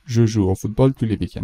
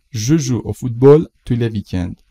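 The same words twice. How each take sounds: First: Said in the usual way. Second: Slow, louder, careful example sentence; slow model read. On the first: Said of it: "repeat at normal speed". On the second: Shown as a demonstration. Teacher models the sentence slowly and loudly for the class. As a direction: read it slowly and clearly aloud. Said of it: "teacher models slowly and louder".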